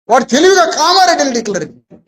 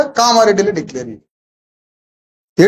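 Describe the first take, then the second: First: Said in the usual way. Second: కామారెడ్డిని drawn out slowly, rising at the end; slow sarcastic emphasis. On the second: Real, not acted. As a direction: stretch out కామారెడ్డిని mockingly, syllable by syllable. Speaker repeats a sarcastic point.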